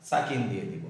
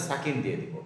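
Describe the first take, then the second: No difference in how they are said.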